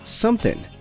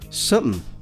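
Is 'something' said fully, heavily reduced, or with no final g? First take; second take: no final g; heavily reduced. First: The final g sound is dropped. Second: The word is squeezed into a much shorter form. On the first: It sounds casual and informal. "dropped the G at the end, so that would be the informal something" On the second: It sounds very casual and relaxed. "the even more informal something"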